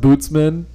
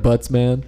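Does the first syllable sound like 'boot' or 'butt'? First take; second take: boot; butt. First: The first vowel sounds like 'boot'. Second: The first vowel sounds like 'butt'. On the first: "It's pronounced Bootsman" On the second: "but I like Buttsman"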